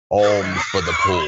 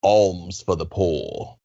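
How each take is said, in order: First: Louder, called out with a laugh; beggar's call. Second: Said in the usual way. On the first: Shown as a demonstration. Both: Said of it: "I'm gonna teach you some words".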